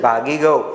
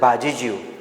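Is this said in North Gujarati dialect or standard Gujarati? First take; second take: standard; North Gujarati. First: It is said in standard Gujarati with g sounds. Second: It is said in North Gujarati dialect with j sounds. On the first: "ભાગી શબ્દ છે ને" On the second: "આનો તળપદો શબ્દ છે, ... ઉત્તર ગુજરાતમાં આ રીતે બોલે"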